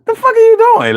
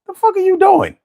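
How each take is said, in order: First: High squeaky laughing voice. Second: High squeaky exasperated voice. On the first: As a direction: squeak the question through a laugh. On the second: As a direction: squeak it out in disbelief. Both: Retold or imitated. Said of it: "With the squeaky voice".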